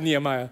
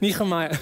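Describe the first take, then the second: First: The h is a plain, ordinary sound. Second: The h is a strong throaty ch sound. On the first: "I'm going to say Nehemiah" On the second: "make sure to pronounce the ch"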